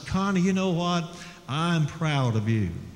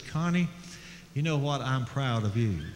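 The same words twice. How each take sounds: First: It is said a little louder than normal. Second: It is said at a normal, soft volume.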